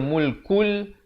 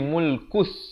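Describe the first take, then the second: First: The word ends with a clear l sound. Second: The word ends with an s sound. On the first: The speaker calls it wrong. "Jangan baca mulkul" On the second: The speaker calls it right. "tetapi mulkus"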